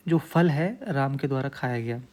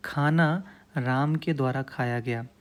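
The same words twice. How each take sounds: First: फल lifted and hit as the key word; stress on phal. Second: खाना said slowly and leaned on first; stress on khana. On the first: Teacher swaps in फल to show the shifted stress. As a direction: lean into फल, let the rest follow. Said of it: "हमारा फल पे जोर हो जाएगा". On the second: Teacher showing students the stress on खाना. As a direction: put the weight on खाना, the rest slower. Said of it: "जो जोर है हम खाने पे दे रहे हैं". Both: Shown as a demonstration.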